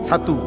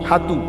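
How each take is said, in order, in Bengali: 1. শব্দটি ch শব্দ দিয়ে শুরু। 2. শব্দটি h শব্দ দিয়ে শুরু। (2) "হাতু আগে কইতেন না আপনারা?"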